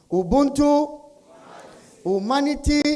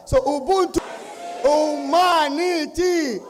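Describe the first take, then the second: First: Chanted, high, raised call to the crowd; chanted, call it out, leaving room for answers; call-and-response chant. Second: Chanted, high, drawn-out rallying shout; chanted, stretch the last word into a huge crowd call; very loud chant. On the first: Real, not acted. Leading audience in call and response. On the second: Shown as a demonstration. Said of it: "Very loud".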